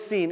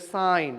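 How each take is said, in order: First: The vowel is a long ee sound. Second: The vowel is an eye sound. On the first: The speaker calls it wrong. "It's not a seen" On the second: The speaker calls it right. "it's a sine"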